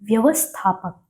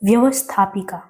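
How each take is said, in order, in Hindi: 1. इस शब्द का अंत 'ak' की ध्वनि से होता है। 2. इस शब्द का अंत 'ika' की ध्वनि से होता है। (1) "व्यवस्थापक सही है" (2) "व्यवस्थापिका भी बोलते हैं"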